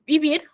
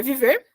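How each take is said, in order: First: Vivir, Spanish style with the last syllable stressed. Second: Viver with a clear Portuguese v in the middle, gentle rise at the end; viver, plain Brazilian Portuguese. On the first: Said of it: "que é viver". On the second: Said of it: "por exemplo, vivir". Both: Shown as a demonstration.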